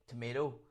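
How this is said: Tomato is said with a North American accent. This is how the listener's country says it. "you'd say tomato"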